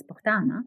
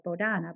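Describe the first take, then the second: First: "Bogdana" with a clear hard g, bog-DA-na; "Bogdana" said properly, the g fully voiced; correct pronunciation. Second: "Bodana" said without the g, bo-DA-na; "Bodana" with a soft, silent g; wrong pronunciation. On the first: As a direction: sound the g firmly in "Bogdana". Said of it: "the correct pronunciation is Bogdana". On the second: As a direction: drop the g in "Bodana". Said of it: "but the correct pronunciation is Bogdana". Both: Shown as a demonstration.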